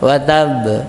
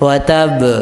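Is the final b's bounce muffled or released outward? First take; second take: muffled; muffled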